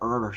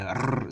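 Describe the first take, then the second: First: The R is curled back, like American English. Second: The R is trilled with the tongue tip. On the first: The speaker calls it wrong. "retroflexed R that you hear in American English" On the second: The speaker calls it right. "you have to trill that R"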